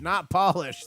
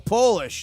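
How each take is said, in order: First: The first vowel sounds like 'ah'. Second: The first vowel sounds like 'oh'. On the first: It means to shine something. The speaker calls it wrong. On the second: It refers to the country Poland. The speaker calls it right. "Oh, Polish"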